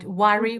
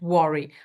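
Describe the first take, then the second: First: The first vowel is an open, unrounded 'uh' sound. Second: The first vowel is said with rounded lips. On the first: The speaker calls it right. "worry with a" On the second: The speaker calls it wrong. "the locked vowel sound ... this rounded sound"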